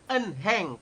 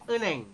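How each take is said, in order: First: The middle h sound is clearly pronounced. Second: The middle h sound is silent. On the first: The speaker calls it wrong. "bukan enheng" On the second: The speaker calls it right. "dibacanya eneng"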